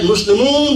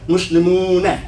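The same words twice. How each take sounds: First: The word ends on the n, with no vowel. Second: The word ends with a short vowel after n. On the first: "we said Muslimun" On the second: "but it's actually what?"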